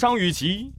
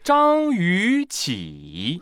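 First: The last syllable has a rising tone. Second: The middle syllable rises; the last one dips. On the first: The speaker calls it wrong. "她不叫张雨绮" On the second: The speaker calls it right. "两个上声连读，那前一个上声就变阳平，所以应该念张雨绮"

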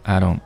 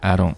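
Both takes have the same delivery.

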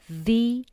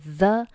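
First: The word ends in a long 'ee' vowel. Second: The word ends in a short, weak 'uh' vowel. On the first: The speaker calls it right. "而读作the 因为后面的insurance 这个单词它是以元音字母开头" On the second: The speaker calls it wrong. "不读作the"

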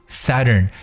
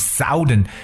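First: The first vowel is short, as in 'sun'. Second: The first vowel is long, as in 'south'. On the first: The speaker calls it right. "短音啊的发音Southern" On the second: The speaker calls it wrong. "南方是不是读成Southern，那这样就读错了"

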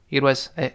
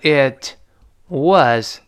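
First: The two words are said quickly and linked together. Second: The two words are said slowly and separately. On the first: "读得非常快的时候读成It was It was It was" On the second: "读慢的时候读成It was"

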